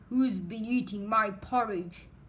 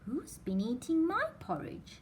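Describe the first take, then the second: First: It is said in a deep, gruff voice. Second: It is said in a medium-pitched voice. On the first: A big bear is speaking. "he said in his great gruff voice" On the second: A middle-sized bear is speaking. "said Mother Bear in a middle-sized voice"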